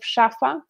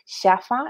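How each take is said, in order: First: The word begins with a sh sound. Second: The word begins with a soft s sound. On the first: It is the standard adult pronunciation. The speaker calls it right. "model the proper pronunciation" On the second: It imitates how a small child speaks. The speaker calls it wrong. "simplify the pronunciation of words"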